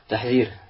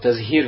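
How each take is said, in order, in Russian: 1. Звук h идёт перед звуком z. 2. Звук z идёт перед звуком h. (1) "вместо «тахзир»" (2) "он говорит слово «тазгир» вместо"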